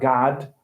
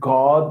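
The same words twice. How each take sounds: First: It is said without a London accent. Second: It is said with a London accent. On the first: "not God" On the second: "you got to say for God, like God"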